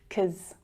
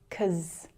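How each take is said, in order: First: The first syllable is dropped, one syllable. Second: The same.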